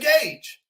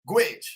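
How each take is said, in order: First: It is said with a long vowel, rhyming with page. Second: It is said with a short vowel, rhyming with bridge. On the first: The speaker calls it right. "You say gauge" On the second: The speaker calls it wrong. "you ain't going to say it like that"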